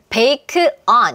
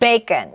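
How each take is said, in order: First: The two words are said separately. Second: The two words run together as one word. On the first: "두 단어를 예상하고 있는데" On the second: "원어민이 bacon 이렇게 소리를 내주면"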